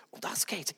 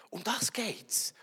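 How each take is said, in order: First: Soft whispered repeat. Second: Slow whispered point; a hushed slow whisper. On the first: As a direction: echo it in a breath. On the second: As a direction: whisper it slowly to land the point. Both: Shown as a demonstration.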